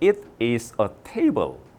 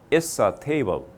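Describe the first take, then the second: First: It is said in full as two words. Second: It is contracted and linked into one. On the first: This is the British way of saying it. "영국은 가면 아직도 it is a table 이렇게 이야기합니다" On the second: This is the American way of saying it. "미국은 it's a table 이렇게 합니다. 연음해버렸어요"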